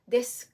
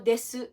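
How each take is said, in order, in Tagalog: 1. Halos hindi binibigkas ang huling u, halos tahimik na. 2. Malinaw na binibigkas nang malakas ang huling u. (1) "yung letter U sa desu ka ay hindi masyadong binibigkas" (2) "Yung iba, binibigkas nila"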